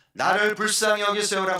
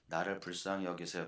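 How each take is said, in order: First: Loud, high desperate cry; shouted plea. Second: Soft, meek plea, much softer; 조용한 부탁. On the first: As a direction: cry out with everything you have. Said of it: "소리를 질렀을까요?". (높고 크게 절규하듯 외치기) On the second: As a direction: ask quietly and timidly. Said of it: "요 외침이 이 바디메오가". (조용히 힘없이 부탁하듯) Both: Shown as a demonstration.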